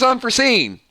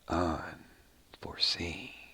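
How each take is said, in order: First: The name is said in a plain, ordinary way. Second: The name is said in a dramatic, menacing way. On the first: The speaker calls it wrong. "if I just say, ... that doesn't have the same pop to it" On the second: The speaker calls it right. "Yeah, I like that better"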